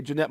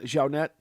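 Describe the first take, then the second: First: Said in the usual way. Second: "Jeanette" said exotically as "zhau-NET"; exotic pronunciation. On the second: Shown as a demonstration. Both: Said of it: "gotta say it all exotic".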